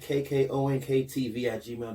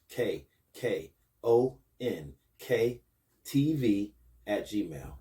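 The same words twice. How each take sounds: First: The address is spoken at a quick pace. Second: The address is spoken at a slow pace.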